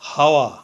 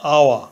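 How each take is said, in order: First: The word begins with an audible h sound. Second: The word begins directly with a vowel sound. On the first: The speaker calls it wrong. "প্রথমে এইচ ধরে উচ্চারণ করলে হয় হাওয়া" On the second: The speaker calls it right. "এইচ এর উচ্চারণ না হয়ে ভাওয়েল ও থেকে উচ্চারণ শুরু হয়েছে আওয়া"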